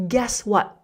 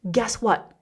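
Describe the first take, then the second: No difference in how they are said.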